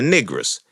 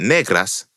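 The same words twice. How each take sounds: First: It is said with a Southern American accent. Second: It is said with a Spanish accent. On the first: "So they were saying" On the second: "as opposed to"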